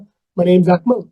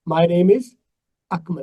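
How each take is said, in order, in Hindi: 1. शब्द आपस में जुड़कर Akmal में चले जाते हैं। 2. Akmal को एक विराम के साथ अलग किया गया है।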